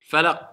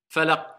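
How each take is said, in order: Both takes have the same delivery.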